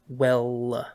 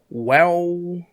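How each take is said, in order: First: The final L sound is clearly pronounced. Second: The final L sound is dropped or vowel-like. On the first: The speaker calls it right. "say well with the L" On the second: The speaker calls it wrong. "because of where he's from, it's pronounced well"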